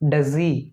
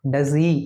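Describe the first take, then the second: Both takes have the same delivery.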